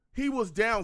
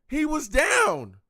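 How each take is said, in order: First: Said in the usual way. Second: High, loud and slow, every word hammered; drawn-out furious protest; outraged shout. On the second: Real, not acted. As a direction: yell it at the refs. Repeating outrage at the call.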